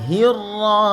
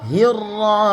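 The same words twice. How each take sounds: No difference in how they are said.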